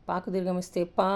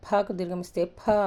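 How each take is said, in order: First: "పా" with no puff of breath; unaspirated long PA. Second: "ఫ" with a strong puff of breath; aspirated long PHA. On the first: Teacher drilling letters, long unaspirated "పా". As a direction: hold the vowel of "పా" after a clean P. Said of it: "ఇవి నేను ఎలా పలుకుతున్నానో". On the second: Teacher drilling mahaprana letters, aspirated long "ఫ". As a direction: push a long "ఫ" from the belly. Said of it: "ఇది మహాప్రాణాక్షరాలు కాబట్టి". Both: Shown as a demonstration.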